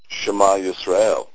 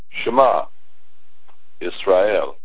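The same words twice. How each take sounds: First: The two words are said together without pause. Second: There is a pause between the two words. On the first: It is a call addressed to Israel to listen. "listen Israel" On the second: It says listen, then begins a statement about Israel. "if they are not said together"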